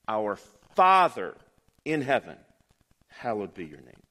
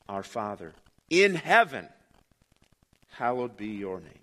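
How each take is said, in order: First: The word 'father' is stressed. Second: The word 'in' is stressed. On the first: "emphasize the second word" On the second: "emphasize the third word"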